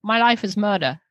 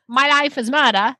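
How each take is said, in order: First: Light New Zealand accent. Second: Light Australian accent. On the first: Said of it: "And New Zealand". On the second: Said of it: "Here's Australian". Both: Shown as a demonstration.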